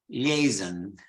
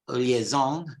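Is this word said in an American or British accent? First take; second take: British; American. First: It is said with a British English pronunciation. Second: It is said with an American, French-like pronunciation. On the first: "in British English, it's liaison" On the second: "in American English, they follow more the French pronunciation. They say liaison"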